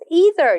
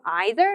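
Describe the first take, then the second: First: It is said in an American accent. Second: It is said in a British accent.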